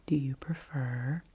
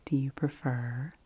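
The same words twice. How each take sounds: The two takes are said the same way.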